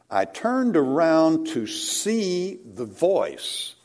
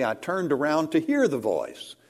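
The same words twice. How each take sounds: First: See stressed, slow and drawn out; see said slow with weight. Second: Hear given the peak of the line; stress on hear. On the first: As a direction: lean on the word see slowly. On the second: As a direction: land on the word hear. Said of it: "Why didn't he say". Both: Shown as a demonstration.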